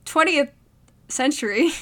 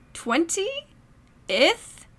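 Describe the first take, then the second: First: "twentieth" said with a clear th ending; careful pronunciation. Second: "twenty-ith" with an ith ending instead of th; wrong pronunciation. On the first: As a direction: say "twentieth century" with a clean final th. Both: Shown as a demonstration.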